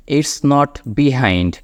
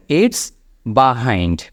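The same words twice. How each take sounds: First: "behind" slowly, as "bee-hind"; common mispronunciation. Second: "behind" very slowly, as "buh-hind"; corrected pronunciation. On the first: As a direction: give "behind" an ee in the first syllable. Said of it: "ভুল উচ্চারণ করে থাকি". ("behind"-কে "বিহাইন্ড" উচ্চারণ) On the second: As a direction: say "behind" with an open buh first syllable. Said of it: "উচ্চারণটা খেয়াল করবেন". ("behind"-কে টেনে "বাহাইন্ড" উচ্চারণ) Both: Shown as a demonstration.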